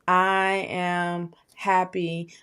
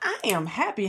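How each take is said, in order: First: It is said flatly, with little energy. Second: It is said with lots of energy.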